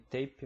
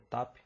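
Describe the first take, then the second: First: The word is said like 'tape'. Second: The word is said like 'tap'. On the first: The speaker calls it wrong. "Da última vez eu falei tape" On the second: The speaker calls it right. "mas é TAP"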